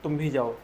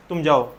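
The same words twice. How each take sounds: First: भी in "तुम भी जाओ" given firm weight; stress on भी. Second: Said in the usual way. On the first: Shown as a demonstration. Teacher demonstrates emphasis on भी for pupils. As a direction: push the word भी. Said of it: "और जोर देकर बोला जाता है कि". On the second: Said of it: "एक बात ये हो गया".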